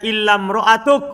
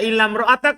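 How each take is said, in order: First: The last word ends with a 'u' vowel. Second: The last word ends with an 'a' vowel. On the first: The word is read as a substitute for the subject. "Kalau badal kan?" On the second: The word is read as the excepted item. "berarti apa? Al mustatna"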